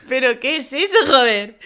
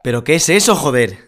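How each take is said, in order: First: Laughing mock-amazed copy; host copying her co-host's amazed outburst; imitating astonishment. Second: Higher, louder amazed outburst with a laugh; can't believe what they see; astonished. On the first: Shown as a demonstration. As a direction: try to copy the amazed line. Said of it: "a ti te ha salido genial". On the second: Pretend. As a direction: gasp it out in disbelief. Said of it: "es como asombro".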